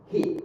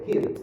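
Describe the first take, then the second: First: "hit" stopped short, T not released; silent final T. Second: "hit" with a popped T at the end; released final T. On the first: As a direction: cut "hit" off before the T pops. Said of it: "or you might silent". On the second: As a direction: pop the T in "hit". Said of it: "you can sound the pap sound". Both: Shown as a demonstration.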